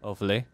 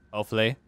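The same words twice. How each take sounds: The two takes are said the same way.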